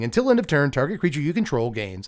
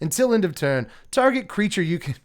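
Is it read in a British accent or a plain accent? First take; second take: plain; British. First: It is read in his plain accent. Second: It is read in a British accent.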